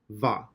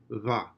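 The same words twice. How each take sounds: First: The consonant is made with lower lip and teeth. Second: The consonant is made with both lips nearly closed. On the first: "which is a labial dental, or at least in English it is" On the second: "It's like a ba, which it can also stand for, but with your lips slightly open"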